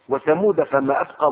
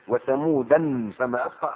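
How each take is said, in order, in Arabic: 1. تُنطق ثمود بدون التنوين النوني -an. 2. تُنطق ثمود بالتنوين النوني -an.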